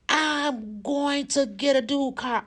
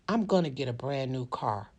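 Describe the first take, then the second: First: It is said forcefully, with strong conviction. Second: It is said flatly, without conviction.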